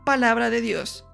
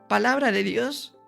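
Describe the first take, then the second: First: It sounds like a firm exclamation, falling at the end. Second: It sounds like a question, rising at the end.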